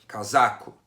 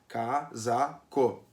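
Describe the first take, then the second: First: Said at normal speed with one syllable stronger. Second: Said slowly with all syllables equally strong. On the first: The speaker calls it right. "força um pouquinho a barra, tu identifica a sílaba tônica, mas não fala devagar" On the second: The speaker calls it wrong. "quando eu falo bem devagar a palavra é que todas as sílabas são iguais"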